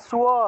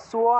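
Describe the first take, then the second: Both takes have the same delivery.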